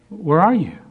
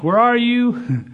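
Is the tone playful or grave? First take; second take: grave; playful. First: It sounds grave and sorrowful, not playful at all. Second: It sounds playful, like a game of hide and seek.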